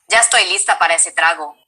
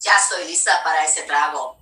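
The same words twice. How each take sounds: First: Lower, quick demo line; less nasal. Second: Low-pitched Spanish line; a lot lower. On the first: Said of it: "it's a little less nasally". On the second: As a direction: drop the voice well down for the line. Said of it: "It's, like, a lot lower". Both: Shown as a demonstration.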